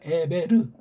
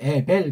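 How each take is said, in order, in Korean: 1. 이 이름은 R 음절로 끝나요. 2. 이 이름은 L 소리로 끝나요.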